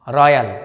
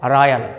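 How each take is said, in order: No difference in how they are said.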